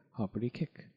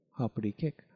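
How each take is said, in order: Both takes have the same delivery.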